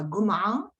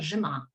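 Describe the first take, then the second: First: It is said in Cairo Arabic. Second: It is said in Damascus Arabic. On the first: "en arabe du Caire, il se prononcera Goma'a" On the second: "en arabe de Damas, il se prononcera Jema'a"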